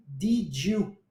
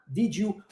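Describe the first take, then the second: First: "did you" blended into "didjiu"; linked did you. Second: "Did you" joined as "didjiu", spoken softly; linked did you, softer. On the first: Teacher showing how did you links. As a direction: run "did you" together as "didju". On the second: Teacher repeating the linked did you. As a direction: join "Did you" into one soft "didju". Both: Shown as a demonstration. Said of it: "a pronúncia do did you".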